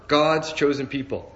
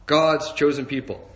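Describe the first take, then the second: No difference in how they are said.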